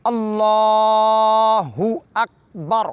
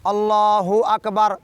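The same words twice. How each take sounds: First: Very slow, drawn-out chanted اللہ اکبر with a rising اللہ; correct recitation. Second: Slow Allahu akbar with the wrong stress, teacher showing the mistake; drawn-out اکبر as people wrongly say it; wrong way demo. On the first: Teacher reciting the correct takbir for students, slow and chanted. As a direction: recite اللہ اکبر slowly with proper tajweed. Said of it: "میں پڑھ کے سناتا ہوں". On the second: Teacher showing students the common mistake, slow wrong recitation. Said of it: "لوگ اس غلطی کو انجام دیتے ہیں". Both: Shown as a demonstration.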